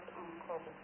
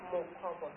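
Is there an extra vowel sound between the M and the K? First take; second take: no; yes. First: No vowel sounds between the M and K. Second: An extra O vowel sounds between M and K. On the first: The speaker calls it wrong. "not Makova" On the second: The speaker calls it right. "My name is actually Makova, There is an O between the M and the K"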